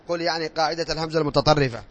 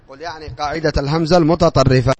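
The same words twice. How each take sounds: First: Said in the usual way. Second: Louder dictation repeat. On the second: Shown as a demonstration. Teacher repeating a dictation line to pupils, louder. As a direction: repeat it louder so the class can write it down.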